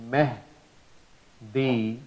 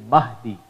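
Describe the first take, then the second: First: Mehdi with a flat eh vowel; wrong pronunciation. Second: Mahdi with an open ah; right pronunciation. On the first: Teacher showing students the wrong vowel, eh sound. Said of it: "which is not the right way". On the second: Teacher correcting Mehdi to Mahdi, open ah. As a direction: say Mahdi with ah, not eh. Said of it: "Instead of saying it Mehdi". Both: Shown as a demonstration.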